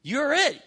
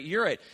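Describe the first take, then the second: First: You're it. punched high and loud on it; emphatic declaration. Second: Said in the usual way. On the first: Retold or imitated. Jesus telling the believer, high emphatic You're it. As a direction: hit it hard and high like a verdict. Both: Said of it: "I think Jesus is saying".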